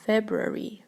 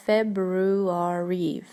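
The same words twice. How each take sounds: First: Said in the usual way. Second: Drawn-out FEBRUARY, every syllable sounded out slowly; common mispronunciation. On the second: Shown as a demonstration. Teacher showing learners how February often gets mispronounced, drawn-out wrong version. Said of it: "очень часто неправильно произносят".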